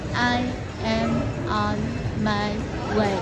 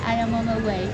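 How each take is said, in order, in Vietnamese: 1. Cụm từ "I am on my way" được nói chậm và có chủ đích. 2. Cụm từ "I am on my way" được nói nhanh và tự nhiên.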